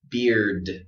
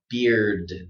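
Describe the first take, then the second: First: The word ends with a strong, clear d sound. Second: The word ends with a strong, clear d sound.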